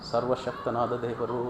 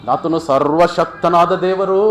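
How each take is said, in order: First: Soft, low reverent echo; acted low, hushed confession of faith; hushed awe. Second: Loud, slow, stretched declaration; acted ringing confession of faith; awed proclamation. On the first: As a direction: let it sink down in quiet wonder. Same words repeated hushed after proclamation. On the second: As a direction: proclaim it with drawn-out weight. Officer proclaims God almighty, then repeats.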